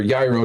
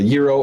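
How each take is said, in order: First: Gyro with a long i, rhyming with Cairo; gyro opening like "eye" with a Y before it; pronounced YAI-roh. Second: Gyro with a Y and a long ee, "YEE-roh"; gyro, Greek-style "YEE-roh"; pronounced YEE-roh. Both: Shown as a demonstration. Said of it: "depending on how you pronounce it".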